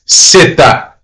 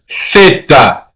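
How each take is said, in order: First: It starts with an s sound, Latin American style. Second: It starts with a th sound, Spanish style.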